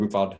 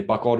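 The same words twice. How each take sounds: First: Buchwald with W said as V; German pronunciation. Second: Buchwald with an English W, first choice; American pronunciation. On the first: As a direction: say Buchwald as "book-vald". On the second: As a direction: say Buchwald as "buck-wald". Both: Shown as a demonstration. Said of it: "what do you wanna call me".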